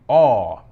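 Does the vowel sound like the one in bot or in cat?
bot. The vowel sounds like the one in bot.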